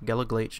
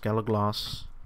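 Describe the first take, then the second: First: The name ends with a throaty, guttural sound. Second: The name ends with a hissing s sound. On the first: The speaker calls it wrong. "It's not Glaich, Galaglaich, no" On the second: The speaker calls it right. "that is how you pronounce that"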